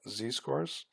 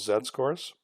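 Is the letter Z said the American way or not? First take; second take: American; not American. First: The letter Z is said the American way. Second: The letter Z is said in a non-American way.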